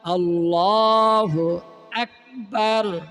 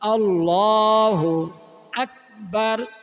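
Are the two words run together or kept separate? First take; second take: separate; separate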